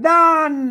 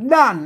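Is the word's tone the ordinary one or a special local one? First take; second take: special; ordinary. First: The word carries a special local tone. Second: The word carries the ordinary standard tone. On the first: "ด้านเนี่ยมันเสียงโทพิเศษโทเมืองนะครับ" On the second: "ด้านนั้นมันมันเสียงอันโทปกติ"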